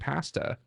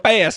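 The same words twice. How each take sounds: First: It is said with an American accent. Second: It is said with an Italian accent.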